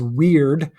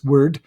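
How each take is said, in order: First: The vowel sounds like the one in 'ear'. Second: The vowel sounds like the one in 'her'. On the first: The speaker calls it wrong. "pronounced as weird all of the time because of the Y" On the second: The speaker calls it right. "the Y actually makes a short U sound. It's word"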